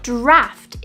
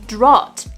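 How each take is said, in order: First: The vowel is an 'a' sound. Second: The vowel is an 'ot' sound. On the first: The speaker calls it right. "Draft is the correct pronunciation here" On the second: The speaker calls it wrong. "which is the ot sound"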